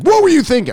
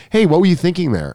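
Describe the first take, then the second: First: Very high, loud exasperated yell; mock outburst. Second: Higher-pitched but casual, gentle challenge; restrained reproach. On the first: Coach showing how he didn't scold the student, mock-outraged. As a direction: exaggerate an outraged scolding, pitched way up. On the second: Retold or imitated. Coach showing how he really asked the student, restrained. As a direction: ask it lightly, without yelling. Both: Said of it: "I didn't say it like that".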